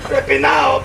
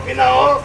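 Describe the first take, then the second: First: Said in the usual way. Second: Desperate rising cry; hungry shout. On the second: Acted. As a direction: cry out the hunger with a rising yell. Hungry man begging outside palace.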